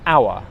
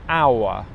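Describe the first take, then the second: First: The word is said at normal speed. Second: The word is drawn out slowly.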